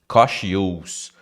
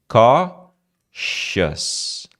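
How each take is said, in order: First: It has an extra 'ee' vowel before the end. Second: It has no extra 'ee' vowel before the end. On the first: The speaker calls it wrong. "Cuidado para não falar cautious" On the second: The speaker calls it right. "quase não tem o i"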